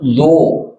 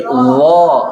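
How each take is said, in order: First: Lo drawn out with rounded o; pouted lips. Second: Lo drawn out with open a-like vowel; open mouth. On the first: Teacher showing the forbidden reading, pouted lo. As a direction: purse on "lo". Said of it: "Jangan lo". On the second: Teacher correcting the letter, open-mouthed lo. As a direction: gape on "lo". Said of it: "tapi lo". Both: Shown as a demonstration.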